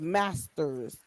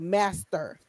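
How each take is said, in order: First: The word ends with an s sound. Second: The word ends without an s sound. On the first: The speaker calls it right. "You said masters" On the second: The speaker calls it wrong. "she say master"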